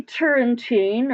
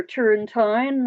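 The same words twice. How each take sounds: First: Put-on [name] with the last syllable as "teen"; [name] ending in "teen". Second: [name] with the last syllable as "tine"; [name] ending in "tine". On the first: Host unsure of the musician's surname, [name] ending "teen". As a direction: say [name] to rhyme with "seen". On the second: Host offering another surname reading, [name] ending "tine". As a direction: say [name] to rhyme with "fine". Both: Shown as a demonstration. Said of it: "not sure how, how that's pronounced".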